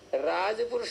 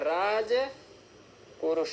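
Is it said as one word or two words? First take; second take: one word; two words. First: It is said as one word without a break. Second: It is said as two words with a break. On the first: The speaker calls it right. "राजपुरुष ही बोलना पड़ेगा" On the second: The speaker calls it wrong. "ऐसे नहीं बोल सकते"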